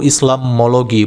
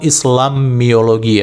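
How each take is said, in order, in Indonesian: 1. Kata itu diucapkan tanpa 'i' sebelum 'ologi'. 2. Kata itu diucapkan dengan 'i' sebelum 'ologi'. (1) "yang benar itu Islamologi" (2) "bukan Islamiologi"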